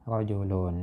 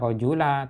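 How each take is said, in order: First: The word ends in an un sound. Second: The word ends in a short a vowel. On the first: The speaker calls it right. "tapi dibaca rajulun" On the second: The speaker calls it wrong. "tidak dibaca rajula"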